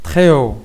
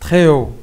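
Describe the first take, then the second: The two takes are said the same way.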